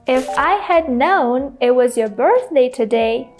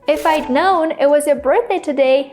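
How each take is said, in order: First: Each word is said separately without contractions. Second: The words are contracted and said faster. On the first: The speaker calls it wrong. "Saying each word separately obviously sounds very unnatural" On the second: The speaker calls it right. "because of contractions, I'm speaking a lot faster"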